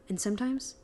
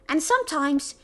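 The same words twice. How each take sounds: First: It is said in the speaker's normal voice. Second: It is said in a put-on Crumble voice.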